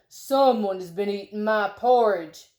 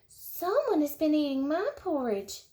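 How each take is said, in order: First: It is said in a great big voice. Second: It is said in a wee little voice.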